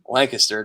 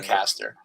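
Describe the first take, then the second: First: Lancaster is pronounced the local way. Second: Lancaster is pronounced the outsider way. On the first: This is how people from the place say it. The speaker calls it right. "It's Lancaster" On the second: This is how someone not from the place says it. The speaker calls it wrong. "because you say it wrong"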